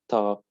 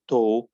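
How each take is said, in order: First: It is said in an American accent. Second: It is said in a British accent. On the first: "talk in American" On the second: "talk in British"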